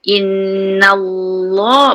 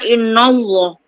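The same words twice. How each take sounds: First: The 'na' is light; only 'Allah' sounds heavy. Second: The 'na' is heavy, like the following 'Allah'. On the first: The speaker calls it right. "Na huruf nipis. Inna Allah baru tebal" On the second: The speaker calls it wrong.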